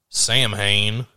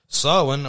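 First: It is said with an American pronunciation. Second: It is said with the Gaelic pronunciation.

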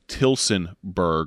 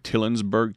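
First: The name is said with the s sound. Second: The name is said without the s sound. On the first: The speaker calls it right. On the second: The speaker calls it wrong.

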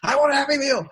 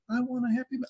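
First: The phrase is said loudly, almost shouted. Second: The phrase is said quietly and timidly. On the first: The speaker calls it right. "shout it out" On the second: The speaker calls it wrong.

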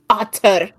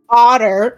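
First: The T in the word is hard. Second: The T in the word is soft. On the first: The speaker calls it right. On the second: The speaker calls it wrong.

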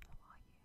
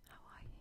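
No difference in how they are said.

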